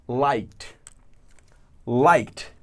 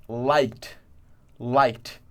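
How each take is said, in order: No difference in how they are said.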